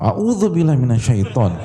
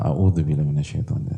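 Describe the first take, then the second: First: It is said provocatively, aimed at someone. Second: It is said calmly and devoutly.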